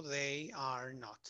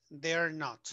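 First: "they are not" slowly, each word separate; fully extended. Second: "they're" as one syllable, then "not"; contracted they're. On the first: Teacher showing the extended form, "they are not" slow and uncontracted. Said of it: "todo extendido". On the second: Teacher showing a negative answer, "they're" contracted. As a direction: run "they are" together into "they're". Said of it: "contestamos de manera negativa". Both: Shown as a demonstration.

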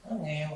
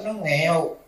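First: Repeated much softer, almost under the breath; quiet echo. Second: Said in the usual way. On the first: Shown as a demonstration. Monk echoing the poor niece's lot, softly. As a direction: let it drop away to a murmur.

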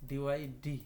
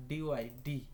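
No difference in how they are said.

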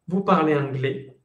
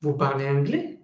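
First: VOUS PARLEZ ANGLAIS with no rise on the last word; statement intonation. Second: VOUS PARLEZ ANGLAIS climbing sharply on ANGLAIS; question intonation. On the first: Teacher showing Ana an affirmation, falling statement intonation. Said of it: "Eso es una afirmación". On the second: Teacher showing Ana a question, rising question intonation. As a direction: ask "vous parlez anglais" with the final word lifted. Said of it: "Eso es una pregunta". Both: Shown as a demonstration.

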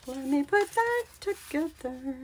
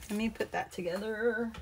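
First: Higher, sing-song repeat of the phrase; playful echo. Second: Said in the usual way. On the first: Real, not acted. Crafter talking to herself as she works, playful echo. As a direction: echo it lightly in a raised, soft voice.

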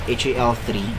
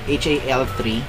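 The two takes are said the same way.

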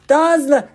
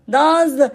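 Both takes have the same delivery.

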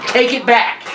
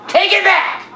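First: Said in the usual way. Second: High angry yell. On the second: Acted. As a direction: shout it back at her. Second take, pitch jumps.

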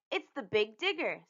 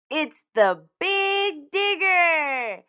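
First: Said in the usual way. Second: High, loud, very drawn-out announcement; slow, booming excited child's cry; triumphant shout. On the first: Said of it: "said Usha". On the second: A narrator's reading. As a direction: stretch it out like a grand discovery. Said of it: "shouted Usha".

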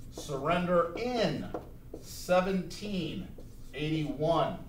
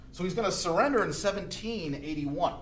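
First: Slow, each word spaced for notes; slow dictation. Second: Said in the usual way. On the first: Shown as a demonstration. Teacher dictating the date for notes, slowly. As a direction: dictate it so students can write. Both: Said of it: "I wanna make it big so you can see".

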